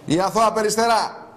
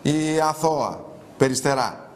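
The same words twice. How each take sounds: First: "Η αθώα Περιστερά" raised higher, arching; mocking proclamation. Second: Slow, drawn-out "Η αθώα Περιστερά"; mock innocence. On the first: Host mocking a woman in a photo, proclaiming. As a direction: announce the nickname like a title. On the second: Host mocking a woman in a photo, slow irony. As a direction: dwell on each word, held back. Mocking repeat of nickname, first quiet.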